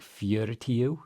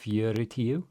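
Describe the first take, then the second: No difference in how they are said.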